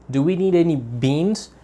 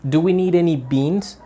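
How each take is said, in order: First: "beans" lifted, question rising on "need". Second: "beans" stressed, tune rising on "we"; modelled question intonation. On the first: Teacher modelling question intonation for English students, rising. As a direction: stress "beans" and rise through the question. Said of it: "we give a stronger intonation to the noun". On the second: Teacher showing students the target intonation, clear rising question. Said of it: "That's the intonation". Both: Shown as a demonstration.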